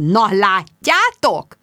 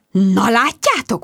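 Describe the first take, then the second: First: Very slow, savouring smugness; very smug. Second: Slow, smug drawl on "látjátok". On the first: Jude gloating at her friends, very smug and slow. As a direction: rub it in slowly. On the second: Jude to her friends at the blinking machine, smugly. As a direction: savour being right. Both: A narrator's reading. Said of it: "mondta Jude iszonyúan öntelt hangon".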